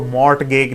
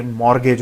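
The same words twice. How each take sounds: First: मॉर्टगेज read as spelt, T pronounced; wrong reading of मॉर्टगेज, audible T before the G; mispronounced with T. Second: मॉर्गेज, R running straight into the G; silent T. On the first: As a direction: say मॉर्टगेज with the T sounded, "mort-gayj". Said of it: "इसको मॉर्टगेज नहीं पढ़ते". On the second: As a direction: say मॉर्गेज with no T, "mor-gayj". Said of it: "मॉर्गेज होता है". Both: Shown as a demonstration.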